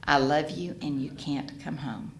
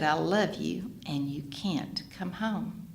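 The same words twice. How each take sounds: First: Said in the usual way. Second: Slow and softer, calm and firm; peaceful. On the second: Retold or imitated. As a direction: say it gently, with total peace. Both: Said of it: "I was so peaceful".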